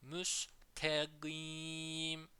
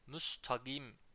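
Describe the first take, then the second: First: The vowel after 'must' sounds like 'e'. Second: The vowel after 'must' sounds like 'a'. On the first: The speaker calls it right. "Burayı müstegim şeklinde okuyalım" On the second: The speaker calls it wrong. "Müstagim diye okunma durumu oluyor"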